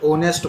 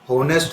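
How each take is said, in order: First: The word starts directly with a vowel sound. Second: The word starts with an audible h sound. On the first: The speaker calls it right. "ओनेस्ट बोला जाएगा" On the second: The speaker calls it wrong. "होनेस्ट नहीं है"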